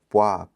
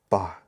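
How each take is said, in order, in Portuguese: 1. Um som tipo w vem antes da vogal a. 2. A vogal a segue a consoante sem som de apoio. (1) "Seria tipo poá" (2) "na verdade o que eles estão falando é pá"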